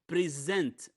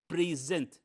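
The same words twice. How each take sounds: First: The stress is on the second syllable. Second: The stress is on the first syllable. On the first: It is used as a verb. "it's a verb. The second syllable is stressed" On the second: It is used as a noun. "if it's a noun, we uh, the first syllable stressed"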